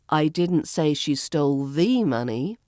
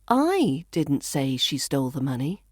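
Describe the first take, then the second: First: The stress falls on the word the. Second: The stress falls on the word I. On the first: Some other money may have been stolen. "but perhaps she stole something" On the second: Someone else said it. "So I could be saying somebody else did"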